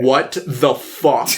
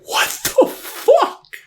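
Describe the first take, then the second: First: Stunned disbelief. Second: Very high, slow squeal of disbelief through a laugh; laughing shock. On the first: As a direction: let it sink in slowly, deadpan shock. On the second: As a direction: screech it out, cracking up in disbelief. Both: Retold or imitated. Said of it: "I'm like".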